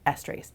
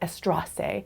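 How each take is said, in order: First: The word is said in a plain, ordinary way. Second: The word is said in a fancy, elegant-sounding way. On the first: The speaker calls it right. "the correct way of saying it" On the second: The speaker calls it wrong. "that sounds very elegant"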